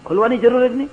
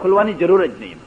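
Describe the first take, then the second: First: Incredulous echo. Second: Said in the usual way. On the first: Retold or imitated. Astonished echo of host's reply.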